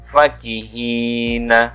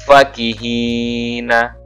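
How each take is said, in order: Both takes have the same delivery.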